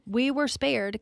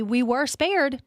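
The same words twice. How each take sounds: First: Said in the usual way. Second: "we were spared" slow and louder, "spared" leaned on; emphatic first take. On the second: Real, not acted. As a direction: stretch out "we were spared" with weight. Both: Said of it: "like me".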